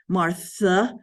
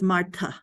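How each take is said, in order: First: The middle consonant is a th sound. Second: The middle consonant is a t with air. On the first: This is the English way of saying it. "we say it in English with a Martha" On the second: This is the Germanic way of saying it. "that H just means the T is aspirated with a puff of air"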